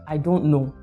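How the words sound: It sounds rude and uninterested. The speaker may know but will not share the answer. "that means that I'm rude, I'm uninterested"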